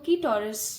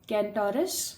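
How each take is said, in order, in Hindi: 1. पहले अक्षर में n ध्वनि मौन है। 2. पहले अक्षर में n ध्वनि बोली जाती है। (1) "कुछ लोग इसको कीटोरस भी बोलते हैं" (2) "बट इट्स कैंटोरस बिकॉज इसके अंदर कोई एन साइलेंट नहीं है।"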